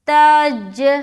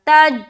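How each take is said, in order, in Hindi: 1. अंतिम j लौटती है, गूँजती हुई छूट के साथ। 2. अंतिम j बिना किसी लौट के सपाट रुक जाती है। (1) "दो मर्तबा साउंड आ रहा ना" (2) "तो कलकला नहीं हुआ"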